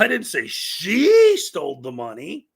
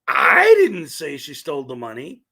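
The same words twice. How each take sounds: First: The word 'she' carries the main stress. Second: The word 'I' carries the main stress. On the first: Someone stole it, but not necessarily her. "I didn't say it was her" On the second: Someone else said it. "which means somebody else said it"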